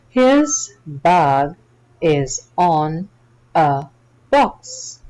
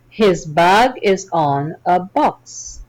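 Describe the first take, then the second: First: It is read slowly. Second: It is read fast.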